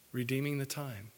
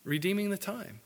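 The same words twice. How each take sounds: First: Repeated lower and much softer, letting it sink in; a hushed, reflective repeat; softer echo. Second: Said in the usual way. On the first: Shown as a demonstration. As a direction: drop the voice and echo it quietly. Repeats phrase for emphasis.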